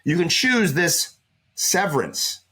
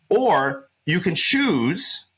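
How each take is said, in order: First: "choose" stretched slowly and falling; slow down and press on "choose" again; pointed, sarcastic weight on "choose"; stress on choose. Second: Slow, drawn-out "choose" with a rising tune; slow, pointed emphasis on "choose"; stress on choose. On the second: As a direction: lean hard on "choose" and stretch it out. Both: Shown as a demonstration. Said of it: "see how I emphasize that word choose?".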